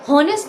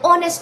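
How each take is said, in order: First: The word begins with an h sound. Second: The word begins with a vowel sound. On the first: The speaker calls it wrong. "हॉनेस्ट नहीं बोला जाता" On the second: The speaker calls it right. "ऑनेस्ट बोला जाता है"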